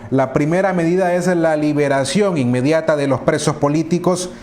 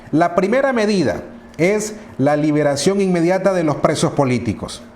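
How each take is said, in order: The two takes are said the same way.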